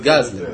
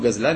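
First: The stress is on the first syllable. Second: The stress is on the last syllable. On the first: "זה מלעיל" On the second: "לא קוראים לו"

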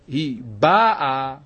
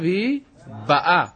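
First: The last word is stressed on its first syllable. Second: The last word is stressed on its second syllable. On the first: She came already. "אז משמע שזה לשון עבר" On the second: She is coming now. "אז זה לשון הווה"

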